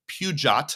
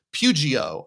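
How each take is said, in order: First: "Peugeot" sounded out as pew-jot; unsure pronunciation. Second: "Pugio" said as pew-jee-oh; guessed pronunciation. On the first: Host reading a car name, guessing "Peugeot" as pew-jot. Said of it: "I'm not sure you pronounce that". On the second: Host retrying the car name, guessing "Pugio" as pew-jee-oh. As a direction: end "Pugio" on an open oh, no t. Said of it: "I don't know how you say it". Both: Shown as a demonstration.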